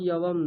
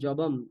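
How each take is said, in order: First: The consonant is a soft y sound. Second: The consonant is a hard j sound. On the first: The speaker calls it wrong. "ইয়বম নয়" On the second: The speaker calls it right. "আর জবম, ... বর্গীয় জ ওটা"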